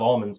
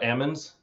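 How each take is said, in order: First: The word is said with an L sound. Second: The word is said without an L sound.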